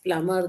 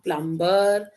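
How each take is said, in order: First: The B sound is left out entirely. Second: The B sound is pronounced in the middle. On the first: The speaker calls it right. "It is plumber, the B is silent" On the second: The speaker calls it wrong. "no, it's not plumber"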